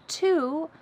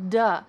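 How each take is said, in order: First: The word starts with a crisp T sound. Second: The word starts with a soft D sound. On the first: "The word to becomes duh" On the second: "becomes duh"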